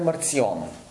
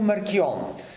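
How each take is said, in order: First: The consonant after 'Mar' is a 'ts' sound. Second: The consonant after 'Mar' is a 'k' sound. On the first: This is the Latinized form of the name. "В латинизираната форма е Марцион" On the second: This is the Greek form of the name. "На гръцки е Маркион"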